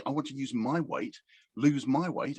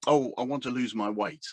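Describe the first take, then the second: First: "my" in "my weight" leaned on a little; a coach quoting a client, with "my" lightly stressed. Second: Said in the usual way. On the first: Retold or imitated. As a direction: press on "my" to show ownership. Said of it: "My weight? ... something that's mine".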